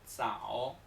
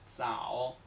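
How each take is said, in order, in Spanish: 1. El primer sonido es un sonido 'ts'. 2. El primer sonido es un sonido 'ts'.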